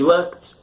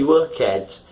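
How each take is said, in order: First: The ending joins the word as one syllable. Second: The ending is said as a separate syllable. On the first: The speaker calls it right. "it's not a separate syllable" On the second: The speaker calls it wrong. "You don't say worked"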